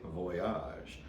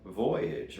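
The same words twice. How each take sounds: First: Voyage said the French way, vwah-YAHZH; soft French-accented Voyage; French pronunciation. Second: Said in the usual way. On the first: Shown as a demonstration. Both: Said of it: "or as the French say".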